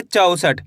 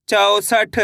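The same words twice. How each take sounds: First: Said in the usual way. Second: चौसठ drawn out evenly, last sound held; blended sounding-out. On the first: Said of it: "कैसे पढ़ेंगे?". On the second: Shown as a demonstration. Teacher blends the letters for learners, चौसठ sounded out evenly. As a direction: join the sounds of चौसठ slowly and fully. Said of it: "तो मिलके बन जाएगा".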